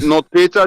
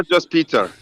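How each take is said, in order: First: Peter with an "ay" first vowel, like "PAY-ter"; German-style Peter. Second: Peter with an "ee" first vowel, like "PEE-ter"; English-style Peter. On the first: Correcting the name, Peter said as "PAY-ter". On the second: Correcting the name, Peter said as "PEE-ter". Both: Shown as a demonstration. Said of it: "not, not Peter, just Peter".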